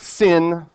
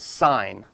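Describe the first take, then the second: First: The vowel is short, rhyming with 'tin'. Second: The vowel is long, rhyming with 'line'. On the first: The speaker calls it wrong. "It's not the sin" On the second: The speaker calls it right. "you would pronounce it like you pronounce a stop sign"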